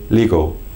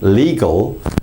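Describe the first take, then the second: First: The final L sound is dropped. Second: The final L is clearly pronounced. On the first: The speaker calls it wrong. "you might say legal" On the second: The speaker calls it right. "how we would say legal"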